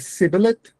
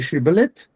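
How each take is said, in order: First: The word begins with an s sound. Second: The word begins with an sh sound. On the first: The speaker is an enemy. "Those who pronounced it s were enemies" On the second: The speaker is a friend. "Those who pronounced the first consonant as sh were friends"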